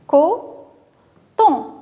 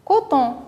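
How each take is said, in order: First: "Coton" split into two separate beats, co, ton; syllable by syllable. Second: Said in the usual way. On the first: Shown as a demonstration. Teacher showing children the chosen syllables, "Coton" said syllable by syllable. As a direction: say "Coton" slowly, pausing between co and ton. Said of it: "la syllabe qu'on va choisir". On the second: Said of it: "et on aura le mot".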